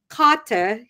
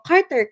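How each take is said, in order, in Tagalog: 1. Ang pangalan ay binibigkas na may lokal na aksent ng New Zealand. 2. Ang pangalan ay binibigkas na may aksent na parang Amerikano. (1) "yung gano'n" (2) "hindi siya nagre-respond doon sa sa pag-pronounce ko ng name niya"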